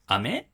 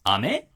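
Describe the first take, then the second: First: Said as a question with exaggerated pitch movement. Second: The same.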